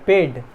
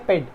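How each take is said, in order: First: The vowel is said long. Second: The vowel is said short. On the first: The speaker calls it right. "We say paid" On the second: The speaker calls it wrong. "We don't say paid"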